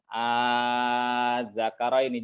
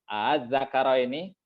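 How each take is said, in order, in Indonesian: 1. Vokal pembuka dibaca panjang. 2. Hamzah kedua dibaca ringan, tidak dipanjangkan. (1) "ibdal dipanjangkan" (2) "tasyil hamzah hamzah washolnya ditasyil"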